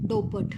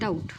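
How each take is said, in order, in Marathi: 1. अंतिम t च्या आधी एक व्यंजन उच्चारले जाते. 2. अंतिम t च्या आधी कोणतेही व्यंजन उच्चारले जात नाही. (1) "रॉंग प्रोनाऊन्सिएशन" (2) "बी हा काय आहे रे, सायलेंट आहे"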